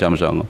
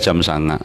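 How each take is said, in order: First: The number word is said with o vowels. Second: The number word is said with a vowels. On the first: This is how people from Klaten say it. "orang Klaten jam songo" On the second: This is how people from Purbalingga say it. "Purbalingga jam sanga"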